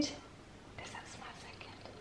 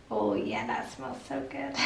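First: Hushed, slow whisper to a pet; whispered pet talk. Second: Pretend dog voice. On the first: Real, not acted. Owner teasing the dog with food, slow whisper. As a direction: whisper it slowly, coaxing the dog. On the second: Owner answering for her dog about food, put-on pet voice. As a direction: answer softly as the dog would.

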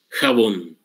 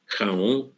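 First: Jabón with a firm j and a final n; Spanish pronunciation. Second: Jabón softened to khao, no b and no n; Guaraní pronunciation. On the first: Teacher giving the Spanish original jabón. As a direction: say jabón fully: kha-BON. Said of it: "y a todas les quitó la N". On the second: Teacher showing the Guaraní version of jabón. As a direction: drop the b and n in jabón, quietly rising. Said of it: "Y entonces en guaraní". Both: Shown as a demonstration.

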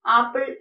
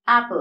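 First: "ആപ്പിൾ" with a long open AA at the start; common mispronunciation. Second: "ആപ്പിൾ" with a short English A as in cat; correct pronunciation. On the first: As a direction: say "ആപ്പിൾ" as AA-pple. ("ആപ്പിൾ" തെറ്റായി നീട്ടിയ "ആ" ശബ്ദത്തിൽ) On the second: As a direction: say "ആപ്പിൾ" as AP-ul, punched louder. ("ആപ്പിൾ" ശരിയായി "ആ്യപ്പ്ൾ" എന്ന്) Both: Shown as a demonstration. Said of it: "ആപ്പിൾ എന്നല്ല".

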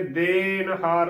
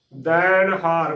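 First: ਦੇਣ ਹਾਰ with a narrow "den"; mispronunciation demo. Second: ਦੈਣ ਹਾਰ with a full, open "dain"; full-voiced vowel. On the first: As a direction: say ਦੇਣ ਹਾਰ with "e" instead of open "ai". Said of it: "ਉਚਾਰਨ ਕਰ ਦਿੰਦੇ ਨੇ". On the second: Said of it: "ਭਰ ਕੇ ਬੋਲਣਾ ਹੈ". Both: Shown as a demonstration.

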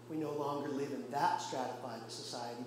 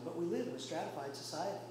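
First: "that" picked out against the rest; stress on "that". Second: "a" set against the earlier "that"; quick phrase, leaning on the article "a"; stress on "a". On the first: Preacher contrasting ancient society with today's, "that" stressed. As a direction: lean on "that" to single it out. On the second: Preacher admitting society is still layered, "a" stressed. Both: Real, not acted.

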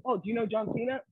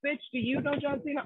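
First: Mock clueless fan. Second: Sassy retort. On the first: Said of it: "It's like". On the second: Retold or imitated. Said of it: "Oh, I'm sorry".

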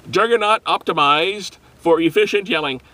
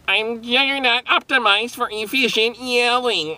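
First: Said in the usual way. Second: High, stiff robot voice. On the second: Shown as a demonstration. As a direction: announce it like a machine. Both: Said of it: "Does that sound like a robot?".

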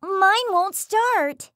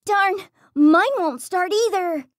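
First: High, drawn-out alarmed blurt. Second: Fearful. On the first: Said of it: "Hades blurted out". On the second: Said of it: "Cronus feared". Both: Acted.

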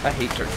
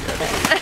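First: Said in the usual way. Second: Breathy squeaky whisper; high whisper. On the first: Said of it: "repeats with changed voice". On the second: Shown as a demonstration.

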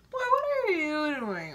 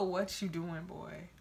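First: Loud, higher, fed-up demand; exasperated. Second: Put-on mumbled, offhand boy's text; mock lazy text. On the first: Real, not acted. Answering the boy's texts, loud and fed up. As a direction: snap it back in frustration. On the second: Quoting the boy's lazy text, mumbled and offhand. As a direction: toss it off lazily like a bored text. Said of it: "I hate a".

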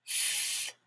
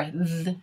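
First: Th as an airy sound with no voice; isolated voiceless Th; phonics sound. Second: Th with the voice buzzing, as in thy; isolated voiced th; phonics sound. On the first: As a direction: hiss Th softly, as in thigh. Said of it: "What does the T H say". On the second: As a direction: hum through th, tongue at the teeth. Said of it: "or th". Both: Shown as a demonstration.

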